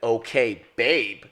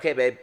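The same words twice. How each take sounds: First: It is said in an angry, annoyed tone. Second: It is said in a calm, neutral tone. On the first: The reader takes the text as upset. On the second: The text is written as an ordinary reply.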